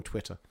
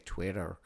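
First: Said in the usual way. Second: Put-on American pronunciation of Twitter; American accent. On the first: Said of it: "or as the Americans say". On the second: Shown as a demonstration. Telling listeners how Americans say Twitter, mock American accent. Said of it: "as the Americans say".

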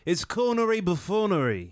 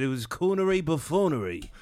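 First: Laughing, higher mock-grand pronouncement; a friend mocking Spike Lee's fancy words, laughing and hammed-up; mock pompous verdict. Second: Amused repeat. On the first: Friend imitates critic, higher with a laugh, hammed-up. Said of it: "I'm surprised he didn't go". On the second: Retold or imitated. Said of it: "That's what I thought about it".

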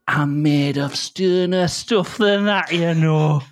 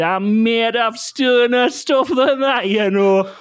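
First: Quoting the dog. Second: Owner quoting the dog, high and slow; high drawn-out dog line; high, slow mock dog phrase. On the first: Acted. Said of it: "he just started saying this phrase". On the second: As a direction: stretch it out like the dog. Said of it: "he just looked up and he said".

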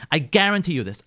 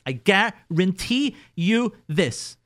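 First: Said in the usual way. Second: "I guarantee you this" slowed right down, each word weighed; slow emphatic guarantee. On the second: Shown as a demonstration. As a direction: lean on every word slowly to drive it home.

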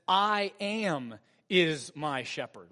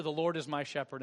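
First: I am is my shepherd, slow and weighty; slow, weighty stress on "I am"; striking reading. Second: Said in the usual way. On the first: Shown as a demonstration. Pastor lets "I am is my shepherd" land slowly. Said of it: "more striking to read this verse". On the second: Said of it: "it just rolls over our ears".

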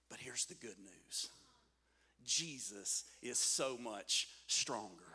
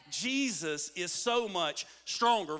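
First: Low, soft and slow; hushed reveal. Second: Slow, full-voiced preaching; emphatic proclamation. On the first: Preacher revealing the good news to the congregation, hushed and slow. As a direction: drop right down to a quiet, weighty delivery. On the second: Preacher repeating the good news to the congregation, emphatic and slow. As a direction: declare it slowly with weight on STRONGER. Same words repeated with force. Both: Real, not acted.

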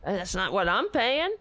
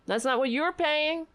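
First: I'm leaned on; weight on the word I'm; stress on I'm. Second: You're said higher and pointed; stress on you're. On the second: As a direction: hit the word you're. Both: Shown as a demonstration.

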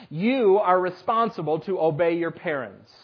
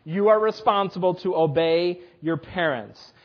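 First: "You" gelegd nadruk, rest vlak uitgesproken; stress on you. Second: "are" krijgt de nadruk, stevig en dalend; stress on are. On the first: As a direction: hit the word "You" first. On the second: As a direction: lean on "are" to insist. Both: Shown as a demonstration. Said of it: "repeated key statement".

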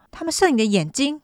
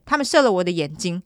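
First: 你的眼睛 pitched up as a question; incredulous echo question. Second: Said in the usual way. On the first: Retold or imitated. Detective echoes the suspect's claim, incredulous questioning. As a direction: query 你的眼睛 in a higher, doubting tone.

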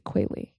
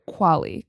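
First: Qualley said as KWAY-lee; long-A pronunciation. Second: Qualley said as KWAH-lee; broad-A pronunciation. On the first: Second try at the actress's surname, Qualley as KWAY-lee. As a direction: say Qualley with "way" in the first syllable. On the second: Trying the actress's surname, Qualley as KWAH-lee. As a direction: say Qualley with an open "ah" in the first syllable. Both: Shown as a demonstration.

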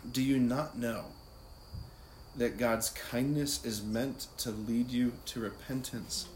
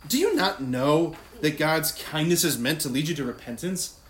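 First: Slow, measured scripture reading with long pauses; prayerful, slow. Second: Loud, accusing rhetorical question; wrong, confrontational tone. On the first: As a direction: repeat it prayerfully, letting each phrase rest. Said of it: "prayerfully, slowly, just repeat it". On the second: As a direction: throw the verse out as a scolding challenge. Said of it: "that's not the tone". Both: Shown as a demonstration.

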